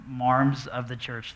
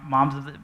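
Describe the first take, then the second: First: "marms" with a long open R, slow and drawn out; New England accent. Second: Said in the usual way. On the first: Shown as a demonstration. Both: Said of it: "That's a New England accent".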